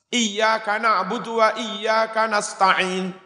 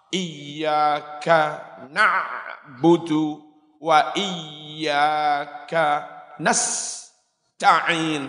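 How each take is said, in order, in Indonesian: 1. Nasta'in diucapkan dengan lancar tanpa jeda. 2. Nasta'in dipotong oleh jeda di tengah kata. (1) "Itu antara sin mati sama ta yang jelas" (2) "Salah. Sak kalimah kok dipedot"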